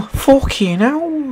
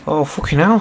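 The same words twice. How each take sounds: First: Much higher, very slow, drawn-out unplaceable mock accent on "Fucking hell"; mystery accent. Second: Said in the usual way. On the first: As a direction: stretch "Fucking hell" out in a silly, unidentifiable foreign accent. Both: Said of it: "I don't know what accent that was".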